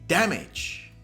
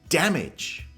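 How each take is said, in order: The two takes are said the same way.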